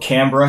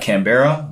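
First: The name is pronounced the way Australians say it. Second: The name is pronounced the way non-Australians say it. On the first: The speaker calls it right. "Canberra has a team" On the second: The speaker calls it wrong. "Not Canberra, once again"

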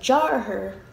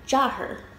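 First: Every sound of the word is pronounced fully. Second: The sounds are reduced and run together. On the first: This is the literal, careful form. "You're literally saying Jarher" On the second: This is how it sounds in everyday speech. "in like normal paced everyday speech... It's like Jarher"

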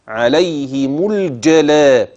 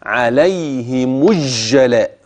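First: The L is clearly pronounced before the J. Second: The L is merged into the following J. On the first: The speaker calls it right. "اذا اتى بعدها جيم فحكمها الاظهار" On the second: The speaker calls it wrong. "يقرا كده عليهم الجلاء، تاني اسمع كده ده غلط"

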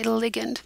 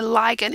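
First: The first syllable sounds like 'lig' in ligament. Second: The first syllable does not sound like 'lig' in ligament. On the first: The speaker calls it right. "it is a ligand ... very similar to ligament" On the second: The speaker calls it wrong. "It is not called a ligand"

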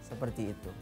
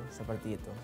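Both takes have the same delivery.

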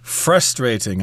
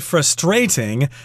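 First: The stress falls on the first syllable. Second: The stress falls on a later syllable. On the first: "Americans tend to put the accent on the first syllable" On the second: "some people say frustrating. I think I've heard British people pronounce it that way"

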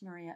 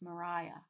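First: The middle syllable sounds like 'ree'. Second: The middle syllable sounds like 'rye'. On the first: The speaker calls it wrong. "it's not pronounced Maria" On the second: The speaker calls it right. "it's pronounced Mariah"

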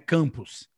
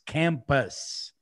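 First: It is pronounced the Portuguese way. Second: It is pronounced the English way. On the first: The speaker calls it wrong. "Não é campus" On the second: The speaker calls it right. "it's campus. Pus"

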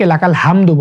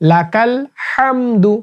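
First: The h is a light, plain breath. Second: The h comes from deep in the throat. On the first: The speaker calls it wrong. "ভুল উচ্চারণ" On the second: The speaker calls it right. "সঠিক উচ্চারণ হচ্ছে লাকাল হামদু, হাটা হলকের মাঝখান থেকে"

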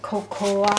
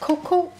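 First: It is said the French way, every letter sounded. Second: It is said the English way, not every letter sounded. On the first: "in French it pronounce cocoa, because in French people pronounce everything written" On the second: "And in English it pronounce cocoa"

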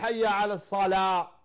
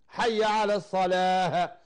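First: The last word ends without an h sound. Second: The last word ends with an h sound. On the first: It calls people into the fire. The speaker calls it wrong. "لا ينطق الهاء" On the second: It calls people to prayer. The speaker calls it right. "ينطق الهاء"

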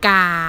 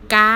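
First: The pitch stays low throughout. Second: The pitch stays high throughout.

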